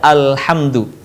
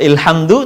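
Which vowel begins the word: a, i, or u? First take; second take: a; i. First: The word begins with an a vowel. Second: The word begins with an i vowel. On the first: The speaker calls it right. "tapi dibaca alhamdu" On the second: The speaker calls it wrong. "atau ilhamdu"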